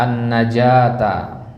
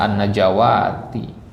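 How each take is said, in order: First: Slow an-najata, long "jaa"; correct reading AN-NAJATA. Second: An-najawati with a long "waa"; wrong reading AN-NAJAWATI. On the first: Teacher models the word, an-najata with long a. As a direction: stretch "ja" in an-najata, no "wa". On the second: Teacher shows the mistake, an-najawati with waw. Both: Shown as a demonstration. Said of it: "bukan bacanya an-najawati".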